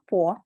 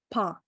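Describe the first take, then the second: First: The vowel is a rounded 'oh' sound. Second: The vowel is an open 'ah' sound. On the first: The speaker calls it wrong. "not po" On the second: The speaker calls it right.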